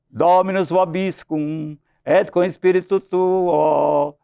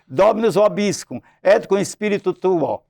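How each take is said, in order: First: It is said in a put-on priest's voice. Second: It is said in his normal speaking voice.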